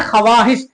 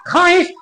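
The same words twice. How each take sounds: First: ख्वाहिश read letter by letter as kha-vaa-hish; as spelt, vav sounded. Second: ख्वाहिश read as khaahish; read with silent vav. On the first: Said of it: "और लिखा हुआ है". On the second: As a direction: read ख्वाहिश without any v sound. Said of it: "तो हमने पढ़ा". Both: Shown as a demonstration.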